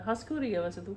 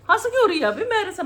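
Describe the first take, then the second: First: Said in the usual way. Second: High, loud mock-indignant why are you laughing; loud amused exclaim. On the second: Real, not acted. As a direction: call it out high and loud at the giggler. Repeats question much louder. (ऊँची, ज़ोरदार नकली नाराज़गी)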